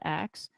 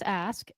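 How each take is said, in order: First: The word ends with a k then s sound. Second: The word ends with an s then k sound. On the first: The speaker calls it wrong. "not axe" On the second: The speaker calls it right. "It's ask, A S K"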